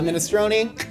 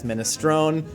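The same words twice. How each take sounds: First: The final vowel is pronounced. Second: The final vowel is dropped. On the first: The speaker calls it wrong. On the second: The speaker calls it right. "E gets dropped"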